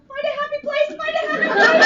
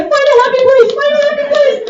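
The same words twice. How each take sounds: First: High, soft, trembling self-soothing chant; starfish voice. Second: High and louder, desperate chant; panicked starfish. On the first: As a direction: whimper it like a scared starfish. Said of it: "From Finding Nemo, which is the starfish". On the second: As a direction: squeal it while being pried loose. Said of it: "as she's getting peeled off and Darla is banging on her". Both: Retold or imitated.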